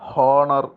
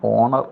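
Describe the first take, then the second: First: The word starts with an h sound. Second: The word starts with a vowel sound. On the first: The speaker calls it wrong. "ഹോണർ എന്ന് നമ്മൾ ഉച്ചരിക്കാറില്ല" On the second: The speaker calls it right. "ഉച്ചാരണം ഓണർ എന്നാണ്"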